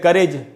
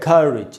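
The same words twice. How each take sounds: First: The final syllable has an 'eh' vowel. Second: The final syllable has an 'ih' vowel. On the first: The speaker calls it wrong. "सब गलत उच्चारण है" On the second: The speaker calls it right. "तो इसको हम पढ़ेंगे करेज"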